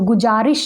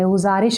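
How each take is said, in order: First: The middle consonant is a 'j' sound. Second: The middle consonant is a buzzing 'z' sound. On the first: The speaker calls it wrong. "गुजारिश नहीं हम बोलेंगे" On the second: The speaker calls it right. "गुज़ारिश हम बोलेंगे"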